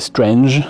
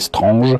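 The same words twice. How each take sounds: First: The name is said with English pronunciation. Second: The name is said with French pronunciation. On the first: Almost no one said it this way. "qui leur a jamais euh, prononcé Strange" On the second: Everyone said it this way. "Je pense que tout le monde l'a prononcé Strange"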